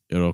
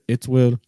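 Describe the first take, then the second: First: The two words merge into one short syllable. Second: The two words are said separately and fully. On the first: "that'll become it'll" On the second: "instead of saying its will"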